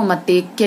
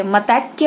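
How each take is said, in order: First: मतैक्य said as "matekya"; wrong vowel. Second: Said in the usual way. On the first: Shown as a demonstration. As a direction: close the middle vowel of मतैक्य to "e". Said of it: "वो मतैक्य लिख देंगे". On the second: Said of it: "होगा".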